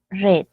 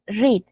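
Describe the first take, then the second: First: "read" with a short e vowel; past-tense pronunciation. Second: "read" with a long ee vowel; present-tense pronunciation. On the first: Teacher recapping the past for students, short e pronunciation. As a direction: say "read" like "red". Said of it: "en pasado es". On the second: Teacher recapping the present for students, long ee pronunciation. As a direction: say "read" like "reed". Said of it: "En presente es". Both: Shown as a demonstration.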